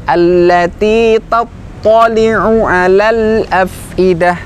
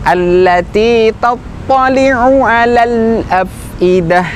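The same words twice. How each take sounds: Both takes have the same delivery.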